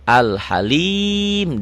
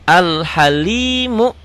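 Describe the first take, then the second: First: The word ends on a consonant. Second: The word ends with a short vowel. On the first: The reading stops at this word. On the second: The reading continues without stopping.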